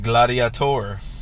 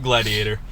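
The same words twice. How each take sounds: First: It is said with an odd, put-on pronunciation. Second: It is said with an ordinary, plain pronunciation. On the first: The speaker calls it right. "You have to pronounce it weird" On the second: The speaker calls it wrong. "definitely not Gladiator"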